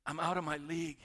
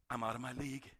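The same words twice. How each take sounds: First: Said in the usual way. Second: Lower, softer humbled admission; humbled murmur. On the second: Acted. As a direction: shrink back before God. Job's humbled reply.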